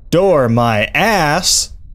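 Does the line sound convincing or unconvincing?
convincing. It is said with a more convincing inflection.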